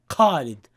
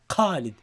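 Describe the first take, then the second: First: The first sound is hard, like a q. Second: The first sound is hard, like a q.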